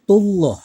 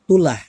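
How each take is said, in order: First: The L is heavy and full. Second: The L is light and thin. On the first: The speaker calls it right. "wajib dibaca tebal" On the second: The speaker calls it wrong. "Nggak boleh dibaca"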